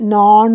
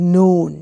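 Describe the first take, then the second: First: The vowel is a flat, unrounded o sound. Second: The vowel is a full, gliding oh sound. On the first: The speaker calls it wrong. "ഇതിൽ നോൺ എന്ന് പറയരുത്" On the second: The speaker calls it right. "ആ ഓടെ sound ഭയങ്കര important ആട്ടോ"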